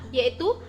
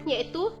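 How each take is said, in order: No difference in how they are said.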